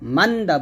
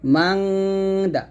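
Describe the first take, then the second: First: The n is short with no nasal hum. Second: The n is held with a long nasal hum. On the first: The speaker calls it wrong. "বলবেন না" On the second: The speaker calls it right. "এরকম"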